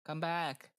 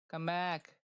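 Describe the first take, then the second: No difference in how they are said.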